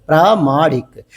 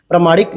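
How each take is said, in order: First: प्रामाणिक with a long first आ, pra-maa-nik; correct spelling said. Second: प्रमाणिक with a short first vowel, pra-ma-nik; wrong form said. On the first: Teacher to students showing the right form, long aa in प्रामाणिक. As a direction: say प्रामाणिक with a clearly stretched long aa after pr. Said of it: "प्रामाणिक इस तरीके से". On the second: Teacher to students showing the wrong form, short a in प्रमाणिक. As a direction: say प्रमाणिक with a short clipped a after pr. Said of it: "नहीं". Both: Shown as a demonstration.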